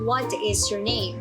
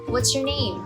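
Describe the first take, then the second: First: The word 'is' is said in full. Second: The word 'is' is contracted to 's. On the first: The speaker calls it wrong. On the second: The speaker calls it right.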